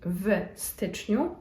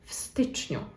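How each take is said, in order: First: The w is a separate, voiced v sound. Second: The w joins the word and sounds like f. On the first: The speaker calls it wrong. "it will not be w styczniu" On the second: The speaker calls it right. "we would actually kind of combine the two words into one ... the letter w kind of becomes more of an F sound"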